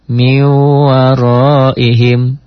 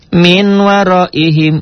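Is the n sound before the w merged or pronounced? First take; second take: merged; pronounced. First: The n sound merges into the following w. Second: The n sound is clearly pronounced before w. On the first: The speaker calls it right. "dibacanya menjadi miwaroihim" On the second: The speaker calls it wrong. "jadi baca kita minwaroihim, ... tetapi teori yang salah"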